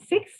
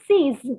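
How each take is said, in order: First: It sounds like the English number six. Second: It sounds like the English word seize. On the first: The speaker calls it wrong. "the pronunciation is not six" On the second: The speaker calls it right. "the pronunciation is seize"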